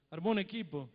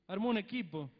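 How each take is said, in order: Both takes have the same delivery.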